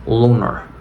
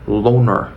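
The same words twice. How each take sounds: Both takes have the same delivery.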